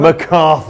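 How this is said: It is said in a British accent.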